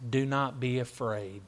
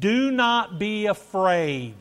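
First: Said in the usual way. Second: Slow, high, loud declaration of scripture; preached proclamation. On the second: Acted. Preacher delivers Christ's words to the congregation, proclaiming loudly. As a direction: proclaim it slowly with a raised voice.

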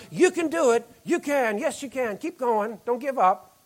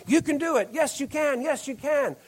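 First: Mock cheerleader. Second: Mock cheerleader cheer. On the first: Preacher mimicking a cheerleader to the congregation, mock cheer. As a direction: cheer them on like a sideline cheerleader. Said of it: "and shout". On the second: Preacher retelling cheerleaders at a game, mock cheer. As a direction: imitate cheerleaders egging on a losing team.

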